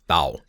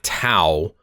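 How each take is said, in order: First: The first consonant falls between T and D. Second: The first consonant is a clear T or D. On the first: The speaker calls it right. "it's not quite a D and it's not quite a T" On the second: The speaker calls it wrong. "It's not Tao"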